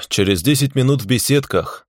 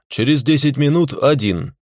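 First: Unhurried, offhand reply; lazy. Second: Firm, stress on минут; insistent. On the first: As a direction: toss it off lazily. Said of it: "лениво ответил я ему". (лениво) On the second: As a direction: lay down the terms firmly. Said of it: "Двадцатый раз повторять не буду". (настойчиво, с нажимом) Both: Acted.

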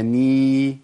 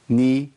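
First: ني drawn out into a long, loud nee; lengthened vowel. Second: ني said short, as a single-beat نِ; one beat only. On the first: Teacher showing the vowel overdone, long held syllable. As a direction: stretch ني well past one beat. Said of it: "لو زودتها تبقى ني". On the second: Teacher showing the limit, short one-beat syllable. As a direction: cut ني off after one count. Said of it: "ما تزيدش عن كده". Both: Shown as a demonstration.

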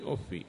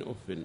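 First: "أف" pronounced uffi; un-nunated "أف", uffi; kasra without tanween. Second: "أف" pronounced uffin; nunated "أف", uffin; kasra with tanween. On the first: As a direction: end "أف" on a short i, no n. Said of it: "بكسر الفاء من غير تنوين". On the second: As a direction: end "أف" on -in with an audible n. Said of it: "بالكسر والتنوين". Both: Shown as a demonstration.

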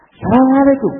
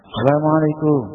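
First: High, bright Assalamualaikum with a handshake; hearty greeting. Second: Gentle greeting. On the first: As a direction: greet warmly while shaking hands. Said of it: "Jabat tangan". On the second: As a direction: say Assalamualaikum with mercy in the voice. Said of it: "dengan bahasa yang rahmah". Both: Shown as a demonstration.

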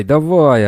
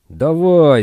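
First: Loud barked order, falling; shouting. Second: Loud high barked order; shouting. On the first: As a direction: bark it again at the prisoners. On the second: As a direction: yell it like a guard driving prisoners. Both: A narrator's reading. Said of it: "орали полицейские".

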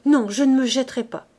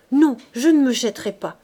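First: High, loud panicked repeat of "Non, je ne me jetterai pas"; cling to the refusal in panic; terrified refusal again. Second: Loud, high panicked "Non, je ne me jetterai pas"; terrified refusal. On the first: Coupeau repeating his refusal, still terrified. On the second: Coupeau refusing to throw himself in, terrified. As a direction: refuse in terror. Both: Acted. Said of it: "Et il bégayait, les dents claquant d'épouvante".

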